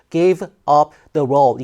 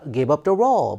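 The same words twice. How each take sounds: First: Each word is said separately, without linking. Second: The words run together like one word. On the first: The speaker calls it wrong. "이게 아니라" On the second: The speaker calls it right. "마치 오, 하나의 단어가 연결되는 것처럼"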